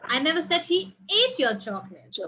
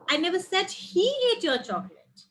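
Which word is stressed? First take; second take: ate; he. First: The stress falls on the word ate. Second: The stress falls on the word he. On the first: He only tasted it. "Maybe he just tasted" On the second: Someone else ate it. "Someone else ate it"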